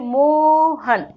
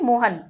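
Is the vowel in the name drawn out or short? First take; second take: drawn out; short. First: The name is called with a long drawn-out vowel. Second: The name is said with a normal short vowel. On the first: The person being called is far away. "अगर कोई व्यक्ति दूर खड़ा होता है तो हम जब उसको बुलाते हैं" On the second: The person being called is nearby. "Normally अगर कोई व्यक्ति पास में"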